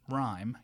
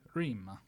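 First: The word has its modern English diphthong. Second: The word has its older Middle English vowel. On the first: This is how it is said today. "you don't say rhyme" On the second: This is how it was said centuries ago. "you would say rima"

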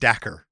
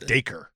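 First: The name rhymes with lacquer. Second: The name rhymes with acre. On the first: The speaker calls it wrong. "I was calling him Dacre. Like a fine lacquer that you put on wood" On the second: The speaker calls it right. "because it's like there's an acre"

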